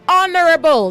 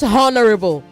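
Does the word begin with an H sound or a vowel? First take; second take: vowel; H. First: The H is silent; it starts with a vowel. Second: The word begins with a pronounced H sound. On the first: The speaker calls it right. "Say honorable ... The H is silent" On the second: The speaker calls it wrong. "not honorable"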